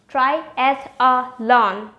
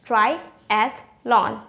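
First: The word is said with four syllables. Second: The word is said with three syllables. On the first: The speaker calls it wrong. "The one with 4 syllable is actually incorrect" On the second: The speaker calls it right. "The one with the 3 syllable is correct"

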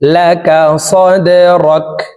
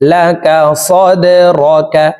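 First: The final kaf is voiceless with no vowel after it. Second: The final kaf is followed by a short a vowel. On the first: The reciter stops at this word. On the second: The recitation continues without stopping.

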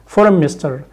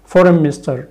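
No difference in how they are said.

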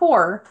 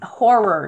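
First: It is said so it sounds like whore. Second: It is said clearly as horror. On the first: The speaker calls it wrong. "not horror" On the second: The speaker calls it right.

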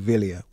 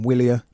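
First: The name begins with a v sound. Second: The name begins with a w sound. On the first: The speaker calls it right. "in Italian it would be Villia" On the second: The speaker calls it wrong. "I've been calling them Willia"

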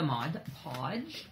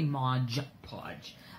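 First: The first word ends in a plain d sound. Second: The first word ends in a j sound. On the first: The speaker calls it right. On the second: The speaker calls it wrong.

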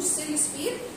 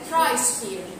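First: The word begins with an s sound. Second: The word begins with a k sound. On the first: The speaker calls it wrong. "هي للاسف مش سيريوسفير" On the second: The speaker calls it right. "هي كرايوسفير"

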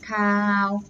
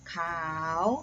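First: The syllable carries the mai ek tone. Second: The syllable carries the chattawa tone. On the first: "ไม่เอก" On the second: "จัตวา"

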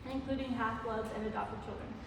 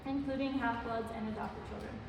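Both takes have the same delivery.

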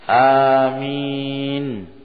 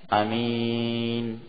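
First: The first vowel is drawn out long. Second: The first vowel is kept short. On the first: "amin bil maddi, dengan dipanjangkan mamdud" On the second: "lafaz yang kedua dengan dipendekkan, tidak dipanjangkan"

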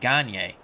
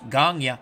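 First: The name is said with an American pronunciation. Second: The name is said with a Quebec French pronunciation. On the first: This is how American broadcasters said it. "I thought they always said Gagne" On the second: This is how people from Quebec say it. "as someone from Quebec, Gagne is pronounced Gagne"

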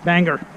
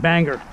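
Both takes have the same delivery.

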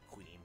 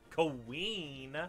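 First: The E vowel is said short and plain. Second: The E vowel is held out very long. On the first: The speaker calls it wrong. "Not Queen" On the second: The speaker calls it right. "I can literally hold out the E for as long as I want to"

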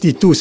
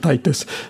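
First: The name is said in its original, non-English form. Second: The name is said in its Anglicized English form. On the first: "The correct one is Titus" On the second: "in English, we always use the King James or the Anglicized version"

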